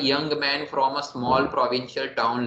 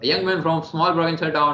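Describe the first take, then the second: First: It is read at normal pace with pauses. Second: It is read very fast with few pauses. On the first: The speaker calls it right. "Normal pause देने हैं" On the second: The speaker calls it wrong. "बहुत speed में पढ़ लूं"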